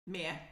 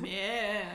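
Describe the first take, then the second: First: Mayor as one clipped syllable, MARE; Mayor squeezed into one syllable. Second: Mayor stretched toward three syllables; Mayor pulled out as MAY-yuh-er; three-syllable attempt. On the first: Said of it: "one or three syllables, depending on how you say it". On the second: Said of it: "I challenge you to give it three syllables". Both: Shown as a demonstration.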